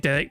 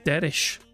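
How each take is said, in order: First: The name ends with a k sound. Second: The name ends with an sh sound. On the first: This is how the hosts have always said the name. "We just fucking say Derek because that's how we've pronounced it for ages" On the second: This is how the text-to-speech voice says the name. "It actually pronounces his name as Derish"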